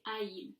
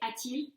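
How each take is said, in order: First: The two vowels meet with no t sound. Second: A t sound links the two vowels. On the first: The speaker calls it wrong. "than it is to say a-il" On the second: The speaker calls it right. "It's much easier to say a-t-il"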